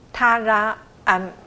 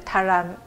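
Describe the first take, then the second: First: The sounds are split into separate parts. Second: The sounds are blended into one syllable. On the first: "再加拉加安" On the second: "再念合起来就塔兰"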